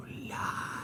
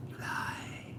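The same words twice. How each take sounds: First: Unvoiced whispered accusation repeated. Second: Unvoiced whispered accusation. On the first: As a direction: breathe it again, creepy and low-key. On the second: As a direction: hiss it close like a secret. Teasing accusation.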